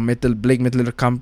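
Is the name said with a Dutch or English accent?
Dutch. The name is said in a Dutch accent.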